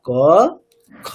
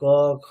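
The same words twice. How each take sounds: First: The kh is said fully, with clear breath. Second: The kh is said weakly, half asleep. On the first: The speaker calls it right. "গোটা খকারটাকে উচ্চারণ করি" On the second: The speaker calls it wrong. "ঘুমিয়ে ঘুমিয়ে যেন একটা খ বলছে"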